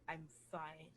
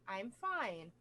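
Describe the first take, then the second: First: It sounds strained and not genuinely content. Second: It sounds relaxed and genuinely content. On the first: The speaker is not really okay. "if you're not really" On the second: The speaker really is okay. "if you're actually a hundred percent okay"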